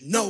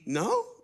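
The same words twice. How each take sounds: First: It is said forcefully and emphatically. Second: It is said with a surprised tone. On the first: A complete refusal. "absolutely not, which is no wah" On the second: Surprise at hearing something new. "no as in, oh, really? I didn't know that"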